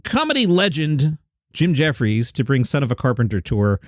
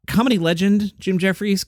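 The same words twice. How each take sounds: First: Reading out a headline, measured. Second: Higher-pitched, doubting echo of the headline; skeptical repeat. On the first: Retold or imitated. Host quoting a tour headline, in a plain read-out voice. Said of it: "I saw a headline". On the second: Real, not acted. Host doubting a comedian's legend billing, skeptical higher voice. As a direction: repeat it as if questioning the word legend. Questioning the headline just read.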